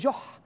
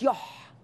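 First: The word begins with a J sound. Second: The word begins with a Y sound. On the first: "وبعض البلاد التانية اسمه جح" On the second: "ما بينطقوش الجيم فيقول لك يح"

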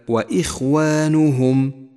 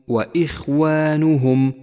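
No difference in how they are said.

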